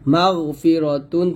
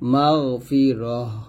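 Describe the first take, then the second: First: The word ends with a t sound and vowel. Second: The word ends with a silent h sound. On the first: The reader carries on without stopping. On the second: The reader stops at the end of the verse.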